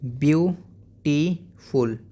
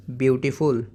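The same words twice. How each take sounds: First: beautiful in three slow beats, byu... tee... ful; split into syllables. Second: Said in the usual way. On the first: Shown as a demonstration. Teacher modelling for pupils, syllable by syllable. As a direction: break beautiful apart, pausing after byu and tee. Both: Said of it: "ऐसे ही".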